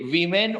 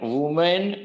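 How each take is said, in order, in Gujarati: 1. પહેલા અક્ષરમાં 'i' સ્વર છે. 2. પહેલા અક્ષરમાં 'u' સ્વર છે. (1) "વિમેન ઉચ્ચાર છે" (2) "વોમેન વુમેન કઈ જ નહીં"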